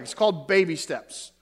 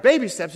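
First: Said in the usual way. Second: Louder, puzzled repeat of the title; puzzled question. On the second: Retold or imitated. Bob asking the doctor about the book, puzzled. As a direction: echo it back in disbelief.

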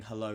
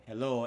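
First: Said in the usual way. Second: Light imitation of a Lancashire hello; Lancashire accent. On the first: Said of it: "saying hello really enthusiastically". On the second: Cohost quoting the presenter's Instagram greeting, Lancashire accent. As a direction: say it with mock Lancashire vowels. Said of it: "in a really Lancashire accent".

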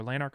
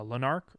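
First: "Lanark" with a long A first; alternative Lanark pronunciation. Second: "Lanark" with a short first vowel; first guess at Lanark. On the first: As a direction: say "Lanark" as LAY-nark. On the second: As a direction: say "Lanark" as one tentative pronunciation. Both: Shown as a demonstration. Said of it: "I'm not sure how you pronounce it".

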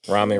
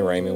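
First: Ramen said the usual way, with "ah" in the first syllable; first pronunciation of ramen. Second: Ramen said with a long "ay", RAY-men; other pronunciation of ramen. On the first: Offering one way to say it to friends, RAH-men. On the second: Correcting himself carelessly for friends, RAY-men. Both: Shown as a demonstration. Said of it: "ramen, ramen, whatever".

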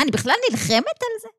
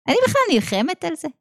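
First: Higher, fast question falling on על; stress on על. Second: Fast question rising on בכלל; stress on בכלל. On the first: Teacher prodding her students, fast and high, falling on על. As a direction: rush it and drop on על. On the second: Teacher repeating the challenge, fast, rising on בכלל. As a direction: push hard on בכלל with a rise. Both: Shown as a demonstration.

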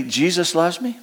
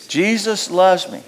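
First: Said in the usual way. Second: Slow, sincere affirmation; slow call and response. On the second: Shown as a demonstration. Pastor leading the church in saying Jesus loves me. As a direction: lead the congregation through it slowly. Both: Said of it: "Can you say with me".

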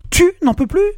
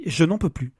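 First: Tu n'en peux plus flung back much higher and louder; husband mocking his wife's complaint; mocking outraged shout. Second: Said in the usual way. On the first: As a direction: sneer her words back at her. Alex throws her words back.

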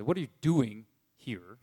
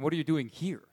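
First: DOING stressed, a gap before "here". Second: HERE given its own weight; stress on HERE. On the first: Preacher shows congregation another reading of God's question, stressing DOING. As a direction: lean on "doing", then drop "here" lower. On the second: Preacher offers congregation a second reading of God's question, stressing HERE. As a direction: put the emphasis on the final "here". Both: Shown as a demonstration. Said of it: "you could emphasize".

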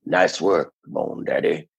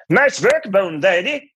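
First: Laid-back hipster, sinking lower at the end. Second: Put-on very high, loud cod Scandinavian accent; bandleader impression. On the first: Acted. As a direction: play it as a low-key hipster. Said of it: "So I did the hipster". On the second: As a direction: punch it as a lilting mock-Scandinavian bandleader. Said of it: "Please let me do Lawrence Welk".

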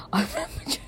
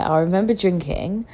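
First: Breathy laughing whisper through the words; whispered giggle. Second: Said in the usual way. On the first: Real, not acted. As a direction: giggle it out under your breath. Repeats it giggling under breath.

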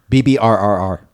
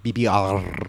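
First: "B B R R R" with the R's only weakly rolled; "B B R R R", a failed trill on the R's. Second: "B B R R R R" with a trilled rolled R; "B B R R R R", roll the R's hard. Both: Shown as a demonstration. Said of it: "I didn't roll my R right the first time".

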